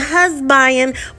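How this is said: The word is said in a Texan accent. "I had to pronounce husband like we do in Texas"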